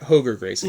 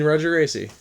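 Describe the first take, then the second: First: The first name begins with an H sound. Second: The first name begins with an English R sound. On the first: The speaker calls it right. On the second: The speaker calls it wrong.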